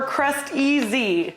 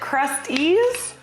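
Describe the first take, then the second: First: The name ends with the word 'easy'. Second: The name ends like the word 'crusties'. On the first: "or Crust-easy?" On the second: "Do you guys pronounce it Crusties"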